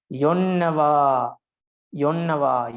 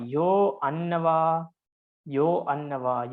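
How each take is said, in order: First: YONNAVA run together as one word; "yonnava" as a single slow, unbroken compound; joined compound. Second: YO ANNAVA as two separate words; "yo annava" taken apart word by word; split compound. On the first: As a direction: say "yonnava" joined, with a drawn-out doubled n. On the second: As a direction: split "yo annava" after the long o, starting "annava" on a clear a. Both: Shown as a demonstration. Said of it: "Yo means yagana".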